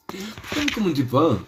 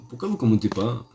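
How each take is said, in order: First: Laughing through the question, higher; laughing repeat. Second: Said in the usual way. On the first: Acted. Teasing the viewers again, laughing as he asks. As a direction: ask again while laughing.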